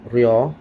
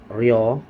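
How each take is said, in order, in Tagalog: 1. Nagsisimula ang pantig sa magaan na tunog na parang R. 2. Nagsisimula ang pantig sa magaan na tunog na parang R.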